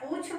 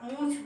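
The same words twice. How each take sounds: First: The vowel is said without nasalization. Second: The vowel is said through the nose. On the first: The speaker calls it wrong. "अगर आप पूछ बोलते हैं तो ये wrong होगा" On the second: The speaker calls it right. "ये आपका सही उच्चारण होगा"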